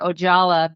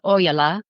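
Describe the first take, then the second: First: The name is said in an Americanized way. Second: The name is said in the original Finnish way. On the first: "in America they do say Ojala" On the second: "it's a Finnish last name, which is pronounced Ojala"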